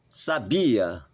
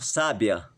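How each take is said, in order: First: The stress is on the second syllable. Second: The stress is on the first syllable. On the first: It says someone had knowledge of something. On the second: It describes someone as wise or intelligent.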